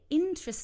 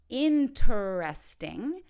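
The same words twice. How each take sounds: First: The word is said with three syllables. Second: The word is said with four syllables. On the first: The speaker calls it right. "We can say interesting" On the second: The speaker calls it wrong. "don't say interesting"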